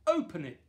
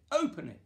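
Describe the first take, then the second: First: Loud urging call; excited shout. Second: Much higher, loud urging repeat; higher excited shout. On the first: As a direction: call out to open the present. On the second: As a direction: push harder the second time, pitched up. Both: Acted. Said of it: "everyone shouted".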